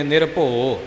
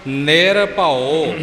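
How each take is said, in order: First: ਨਿਰਭਉ clipped to ਨਿਰਭੋ, final ਉ swallowed; mock wrong way. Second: ਨਿਰਭਉ drawn out very slowly, final ਉ sounded clearly; correct slow model. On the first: Teacher mimics learners' wrong ਨਿਰਭਉ as ਨਿਰਭੋ. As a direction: imitate the careless ਨਿਰਭੋ, a bit lower and quick. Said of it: "ਇਉਂ ਨਹੀਂ ਬੋਲਣਾ". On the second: Teacher shows learners ਨਿਰਭਉ, very slow and exact. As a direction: hold every sound of ਨਿਰਭਉ, ending on a full ਉ. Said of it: "ਊੜੇ ਦੀ ਔਂਕੜ ਦਾ ਉਚਾਰਨ ਨਿਰਭਉ". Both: Shown as a demonstration.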